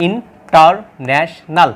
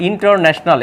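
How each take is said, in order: First: international slowed right down, each syllable apart. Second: Said in the usual way. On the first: Shown as a demonstration. Teacher counting four syllables for students, slowly. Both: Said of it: "এখানে চারটা".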